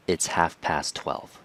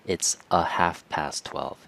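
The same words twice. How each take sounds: First: Said in the usual way. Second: "a" in "It's a half past twelve" shown as the mistake; wrong form with article. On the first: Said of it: "It's just". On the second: Shown as a demonstration. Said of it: "It's not".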